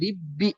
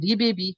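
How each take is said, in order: First: The b merges smoothly into one doubled b. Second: The first b is released with a bounce. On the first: The speaker calls it right. "রিব্বি যেখানে বললাম" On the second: The speaker calls it wrong. "সেখানে হবে রিবেবি, কিন্তু কলকলা তো মানে এখানে করা যাবে না"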